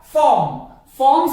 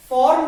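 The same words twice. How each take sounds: First: फॉर्म with a silent r, loud; correct pronunciation. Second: फॉर्म with the r sounded; wrong pronunciation. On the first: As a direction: say फॉर्म firmly as "fawm". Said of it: "ये होगा हमारा". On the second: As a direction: say फॉर्म as "form" with a clear r. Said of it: "फॉर्म नहीं बोलेंगे". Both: Shown as a demonstration.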